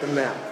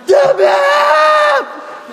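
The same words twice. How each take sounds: First: It is said softly, without yelling. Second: It is yelled loudly.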